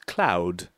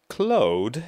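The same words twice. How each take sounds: First: The vowel is an 'ow' sound. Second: The vowel is not an 'ow' sound. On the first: The speaker calls it right. "the pronunciation you get is au" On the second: The speaker calls it wrong. "Not cloud, as you would maybe expect"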